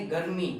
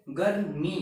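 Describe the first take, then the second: First: गर्मी with only a light touch on the r; गर्मी with a half r, said lightly. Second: गर्मी with the r rolled out in full; गर्मी with a full r, said as a demo. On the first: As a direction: barely stress the r in गर्मी. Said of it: "थोड़ा ही जोर देंगे हम". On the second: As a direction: give गर्मी a clear, complete r. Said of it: "इसको बोलेंगे कैसे". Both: Shown as a demonstration.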